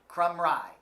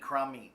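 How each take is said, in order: First: The name ends with a 'rye' sound. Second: The name ends with an 'ee' sound. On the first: The speaker calls it right. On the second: The speaker calls it wrong.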